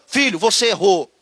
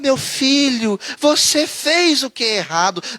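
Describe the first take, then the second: First: It is said in a firm, stern tone. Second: It is said in a soft, gentle tone.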